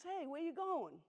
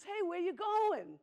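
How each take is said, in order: First: Higher, lightly voiced sheep asking; a curious little sheep, pitched up; sheep's voice. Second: Much higher, louder and slow pig; a big hammed-up pig calling out slowly; pig's voice. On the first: Sheep voiced in bedtime story. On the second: Pig voiced in bedtime story.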